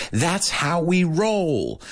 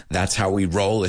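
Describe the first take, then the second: First: Drawn-out, stressing roll; playful emphasis. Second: Said in the usual way. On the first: Shown as a demonstration. Host savoring the idiom for Spanish learners, drawn out. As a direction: lean into "roll", stretched and falling. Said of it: "Exageramos las cosas". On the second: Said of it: "Es una forma muy nati".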